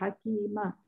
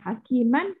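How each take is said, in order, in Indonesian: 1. Kata ini berakhir dengan vokal a panjang. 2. Kata ini berakhir dengan bunyi n. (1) "hakiman jadi hakimah" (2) "hakiman jadi hakimah"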